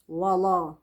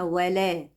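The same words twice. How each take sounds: First: The w and l sound heavy and thick. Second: The w and l sound light and thin. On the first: The speaker calls it wrong. "ولا الضالين كلنا بنقول كده" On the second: The speaker calls it right. "عايزينها ولا"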